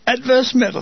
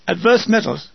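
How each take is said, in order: First: Higher, amused echo of the phrase; mildly chuckling disbelief. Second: Said in the usual way. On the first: A narrator's reading. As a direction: repeat it with a touch of amusement. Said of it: "he chuckles". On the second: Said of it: "I repeat the query".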